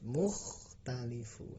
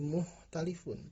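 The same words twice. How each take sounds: First: The kh sound in the middle is clear. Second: The kh sound in the middle is weak. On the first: The speaker calls it right. "kha harus terbaca jelas, tapi harus mukhtalifun" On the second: The speaker calls it wrong. "tidak boleh menjadi mukhtalifun"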